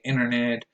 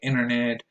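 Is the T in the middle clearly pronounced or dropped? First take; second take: dropped; dropped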